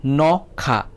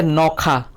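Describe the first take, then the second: First: "Nokha" split as no, kha; syllable by syllable. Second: Said in the usual way. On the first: Shown as a demonstration. Teacher checking for two syllables, "Nokha" in two parts. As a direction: put a small break between no and kha in "Nokha". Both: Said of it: "Kainui kokthor da".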